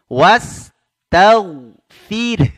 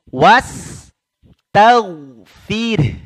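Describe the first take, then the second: The two takes are said the same way.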